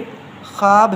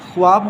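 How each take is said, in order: First: No 'w' sound is heard after the 'kh'. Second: A 'w' sound is heard after the 'kh'. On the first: The speaker calls it right. "बल्कि ख्वाब है" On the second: The speaker calls it wrong. "लोग वाव पढ़ते हैं, पढ़ते हैं ख्वाब, गलत है"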